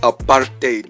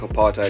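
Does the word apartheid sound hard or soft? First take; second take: hard; soft. First: The word is pronounced with a hard sound. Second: The word is pronounced with a soft sound. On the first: The speaker calls it right. "It's apartheid, bro. Like, does that just not sound different?" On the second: The speaker calls it wrong. "when you say it like apartheid, it sounds soft"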